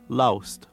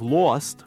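First: The vowel glides like "ou" in loust. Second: The vowel is a plain single sound. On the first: "you're hearing more of a loust" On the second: "Instead of lost, which is what he would do for L-O-S-T"

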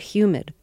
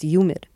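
First: The word begins with a clear H sound. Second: The H is dropped before the Y sound. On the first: "when you first gave us the weather report, you said humid" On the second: "when you did it New York style, it was humid"

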